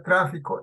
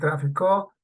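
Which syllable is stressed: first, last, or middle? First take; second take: first; last. First: The stress is on the first syllable. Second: The stress is on the last syllable. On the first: It is the noun. "el tráfico es sustantivo" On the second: It is the past-tense verb form. "el mismo verbo pero en pasado"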